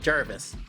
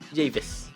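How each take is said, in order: First: The name is said with an R sound. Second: The name is said without an R sound. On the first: The speaker calls it wrong. "it doesn't have an R, so it's not Jarvis" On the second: The speaker calls it right. "it doesn't have an R"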